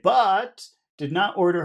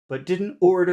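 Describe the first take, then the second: First: The word 'but' carries strong stress. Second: The word 'but' is said without stress. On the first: "you can emphasize any word that you want" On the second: "I didn't really emphasize that word. I think it's normal not to"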